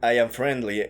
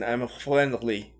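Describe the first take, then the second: First: The r is a plain English r. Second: The r is a guttural French-style r. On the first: "no dicen"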